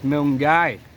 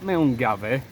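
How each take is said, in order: First: The middle 'gav' sound is left out. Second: The middle 'gav' sound is fully pronounced. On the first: The speaker calls it right. "it's Milngai" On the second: The speaker calls it wrong. "we say things how it's spelt"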